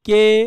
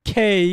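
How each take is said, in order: First: The first consonant has no puff of air. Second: The first consonant has a strong puff of air. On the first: The speaker calls it wrong. "Maximum যেটা বলতেন" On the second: The speaker calls it right. "এগুলো কেমন হবে আজকে থেকে"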